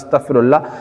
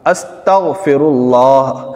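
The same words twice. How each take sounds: First: The word is rushed with letters slurred together. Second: Each letter is articulated clearly and carefully. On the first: It is said only as a formality. The speaker calls it wrong. "ऐसा नहीं बस सिर्फ formality" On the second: It is said with proper attention. The speaker calls it right. "ये सही तलफ़ुज़ है।"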